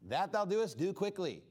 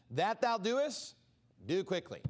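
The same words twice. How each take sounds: First: Said in the usual way. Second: Slow, weighted scripture words; slow solemn reading. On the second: Acted. Jesus telling Judas to go, read slow and solemn. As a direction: draw out each word of Jesus.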